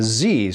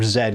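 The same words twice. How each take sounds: First: The letter is said the American way. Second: The letter is said the Canadian way. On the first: The speaker calls it wrong. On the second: The speaker calls it right.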